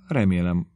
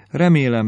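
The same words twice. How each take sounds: First: Said in the usual way. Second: Remélem jumps high and loud, then falls; a girlish gush on remélem; giddy exclamation. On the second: Acted. Lydia's giddy letter.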